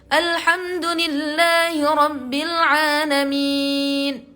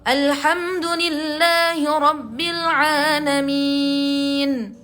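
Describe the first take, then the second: Both takes have the same delivery.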